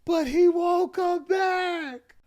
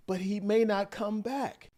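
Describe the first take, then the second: First: Very high, slow, loud mock wail; hammed-up distraught yell. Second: Raised but controlled pitch; restrained retelling, no shouting; imitated calm plea. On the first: Wife crying out to her mom, exaggerated yelling. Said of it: "She probably said". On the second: Wife turns to her mom on the phone, controlled plea. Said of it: "in a very calm voice just now".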